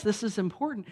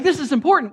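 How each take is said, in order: First: Said in the usual way. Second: High, loud mock panic; frenetic. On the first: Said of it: "Well, yeah, it is important". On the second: Imagined keyed-up believer insisting to God, mock frenetic. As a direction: blurt it out as a frantic protest. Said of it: "'Cause when you're frenetic".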